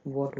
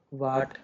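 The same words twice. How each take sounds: First: "वॉट" with a rounded aw; rounded O vowel. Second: "वाट" with a long aa; open AA vowel. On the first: Teacher giving students the proper form, "वॉट" with aw. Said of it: "वॉट होता है". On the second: Teacher showing students the loose pronunciation, "वाट" with long aa. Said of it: "वाट, वॉट होता है". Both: Shown as a demonstration.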